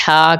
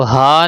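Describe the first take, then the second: First: ہا with a tight Arabic h from mid-throat; ہا as a constricted pharyngeal h. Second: ہا with a plain, light h; ہا as an unconstricted h; wrong plain h. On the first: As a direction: squeeze the h of ہا in the middle of the throat. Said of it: "حلق کے درمیان سے ادا کرنا". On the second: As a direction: say ہا with an ordinary breathy h, not from mid-throat. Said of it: "اس کو ہا نہیں کہنا". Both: Shown as a demonstration.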